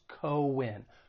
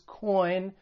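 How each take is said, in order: First: The letters are said as two syllables. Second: The letters are said as one syllable. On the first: The speaker calls it right. "two different syllables" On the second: The speaker calls it wrong. "it's not pronounced as coin"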